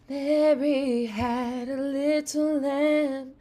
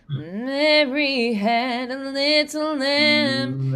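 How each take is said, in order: First: The voice is raspy and airy. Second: The voice sounds nasal. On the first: "I try a little raspy" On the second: "I add a little bit of nasality to it"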